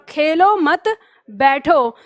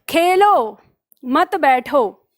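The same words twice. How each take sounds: First: The pause comes right after 'mat'. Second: The pause comes right after 'khelo'.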